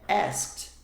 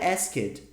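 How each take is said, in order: First: The E is silent, giving one syllable. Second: The written E is sounded, giving two syllables. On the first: The speaker calls it right. "Esse E existe na escrita, mas ele não é falado" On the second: The speaker calls it wrong. "Não é asked"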